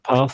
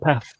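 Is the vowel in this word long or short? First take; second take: long; short. First: The vowel is long, southern style. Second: The vowel is short, northern Manchester style.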